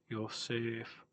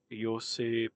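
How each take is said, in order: First: The name ends with an f sound. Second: The name ends without an f sound. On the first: The speaker calls it right. "Yosef has the F, F" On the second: The speaker calls it wrong.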